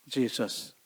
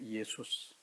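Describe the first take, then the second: First: The name begins with a 'j' sound. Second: The name begins with a 'y' sound. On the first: "영어로는 예수님이 뭐예요?" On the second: "그리스 말로는 뭐냐?"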